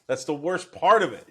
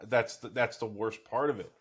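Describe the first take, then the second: First: Repeated louder and higher, with emphasis on part. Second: Said in the usual way. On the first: Real, not acted.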